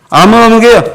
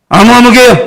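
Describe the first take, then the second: No difference in how they are said.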